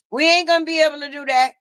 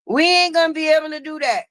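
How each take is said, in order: Both takes have the same delivery.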